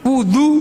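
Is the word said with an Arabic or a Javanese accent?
Arabic. The middle consonant is the Arabic d sound.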